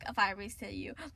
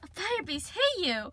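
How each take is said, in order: First: It is said in a casual, offhand tone. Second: It is said in a dramatic, urgent tone.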